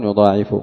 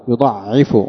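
First: يضاعف said "yudaa'ifu", long aa; long aa and single ayn in يضاعف; majority reading. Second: يضعف said "yuda''ifu", doubled ayn; short a, then doubled ayn in يضعف; variant reading. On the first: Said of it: "والباقون". (يضاعف بالألف وتخفيف العين) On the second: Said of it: "قرأ ابن كثير". (يضعف بتشديد العين دون ألف) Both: Shown as a demonstration.

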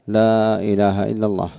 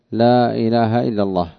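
The two takes are said the same way.

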